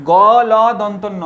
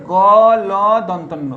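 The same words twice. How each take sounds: The two takes are said the same way.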